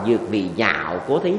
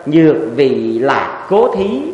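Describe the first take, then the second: First: The third syllable is pronounced nhạo, with NH. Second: The third syllable is pronounced lạc, with L. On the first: It means for the sake of liking something. The speaker calls it wrong. "Quý vị dịch sai hay đọc là" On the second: It means for the sake of peace and joy. The speaker calls it right. "đây là lạc"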